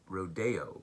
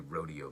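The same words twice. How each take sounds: First: The word is given a fancier-sounding pronunciation. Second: The word is given a plain, ordinary pronunciation. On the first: "I like to say rod rodeo because it sounds fancier" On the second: "but it's probably rodeo meets"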